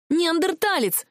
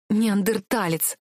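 First: Higher, yelled insult; angry yell. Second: Slow, stretched-out Неандерталец, level voice; drawn-out insult. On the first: Heroine shouting at the prince mid-fight, angry yell. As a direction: hurl the insult at him. Heroine yells while throwing things. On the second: Heroine held tight by the prince, slow scornful insult. Heroine caught in his arms. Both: A narrator's reading.

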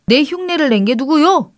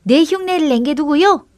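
First: Higher, mildly raised shout; indignant call, moderately raised. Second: Higher echo of a call; mimicked shout. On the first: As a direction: call out to demand who is there. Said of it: "동생이 소리쳤습니다". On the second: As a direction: mimic the indignant call, pitched up. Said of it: "또 흉내내는 소리가 들려왔습니다". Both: A narrator's reading.

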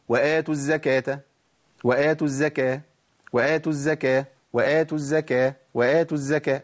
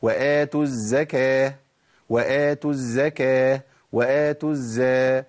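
First: وآتوا الزكاة with the doubled ز said light; wrong form. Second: وآتوا الزكاة slow, doubled ز held clearly; correct shadda. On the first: Teacher repeats the common error. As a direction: rush past the shadda of الزكاة. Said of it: "ده خطأ، أنا بعمل أكرر خطأ". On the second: Teacher shows the right recitation. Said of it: "أمال الصح إيه". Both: Shown as a demonstration.

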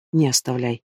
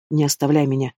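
First: Lower, softer, almost breaking voice; the plea collapses into a hushed, broken murmur. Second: A pleading cry with the voice on the edge; desperate plea. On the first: Husband quietly pleading over his dying wife. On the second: Husband begging his dying wife not to leave. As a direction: beg her not to leave you. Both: A narrator's reading.

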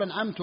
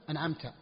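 First: "أنعمت" ending in -tu instead of -ta; wrong final vowel. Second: Said in the usual way. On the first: Shown as a demonstration. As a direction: demonstrate the slip, damma on the last t of "أنعمت". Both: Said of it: "بدل".

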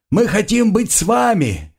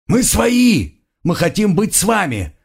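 First: Shouting. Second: High frantic shouts; shouting. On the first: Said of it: "крича". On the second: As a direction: keep yelling, beaten and desperate. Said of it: "продолжали орать избитые". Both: A narrator's reading.

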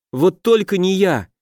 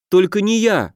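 First: High desperate begging; pleading. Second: High, begging cry of a frightened creature; pleading. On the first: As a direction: beg again, a touch higher. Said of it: "взмолился лохр, заламывая руки". (высокая отчаянная мольба) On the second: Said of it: "взмолился лохр". (высокий испуганный умоляющий голос) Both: A narrator's reading.

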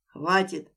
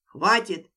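First: Cutting shout. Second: Loud commanding stop; sharp shout. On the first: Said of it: "оборвал его пагубную мысль". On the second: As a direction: cut them off hard. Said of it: "Меня прорвало". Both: Acted.

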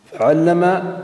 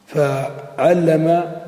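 First: Said in the usual way. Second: Slowly drawn out. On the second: Shown as a demonstration. Teacher slowly sounding out فعلم for the class. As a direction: stretch فعلم very slowly, holding every sound.

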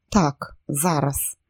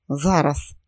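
First: Slow, cold deliberate resolve; cold inner voice. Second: Cold inner voice. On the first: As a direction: let the cold voice decide, slowly. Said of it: "холодний голос у мозку". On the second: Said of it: "голодний, холодний голос у мозку". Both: Acted.

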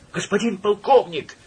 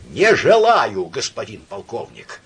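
First: High, confused and relieved cry; flustered glad shout. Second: Dull wooden voice. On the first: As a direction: call out, flustered yet glad. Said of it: "сметенно и в то же время обрадованно закричал". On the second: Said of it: "ответил он суконным голосом". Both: A narrator's reading.

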